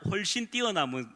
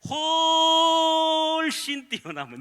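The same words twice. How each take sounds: First: It is said plainly and quickly. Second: It is said emphatically and drawn out.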